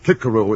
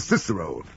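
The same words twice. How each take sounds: First: It uses the new style of Latin pronunciation. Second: It uses the old everyday pronunciation. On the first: This is how boys must say it at school. "making boys say Cicero at school" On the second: This is how people say it in later life. "for the rest of their lives they'll say Cicero"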